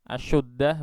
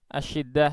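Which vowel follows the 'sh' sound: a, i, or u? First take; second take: u; i. First: The vowel after 'sh' is u. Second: The vowel after 'sh' is i. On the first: The speaker calls it wrong. "Kalau di dhammah, asyuddah begitu" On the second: The speaker calls it right. "Asyiddah ya"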